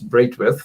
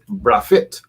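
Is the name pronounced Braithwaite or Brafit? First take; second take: Braithwaite; Brafit. First: The name is said as Braithwaite. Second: The name is said as Brafit.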